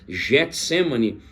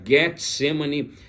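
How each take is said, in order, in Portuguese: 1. O nome é falado do jeito comum em português. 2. O nome é falado seguindo a pronúncia grega. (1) "Nós acabamos usando Getsemane" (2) "a pronúncia do grego seria Getsemane, pois seria a forma correta da pronúncia"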